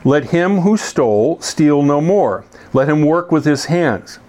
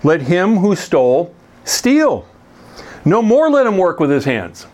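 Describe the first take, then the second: First: The pause comes after 'no more'. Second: The pause comes before 'no more'.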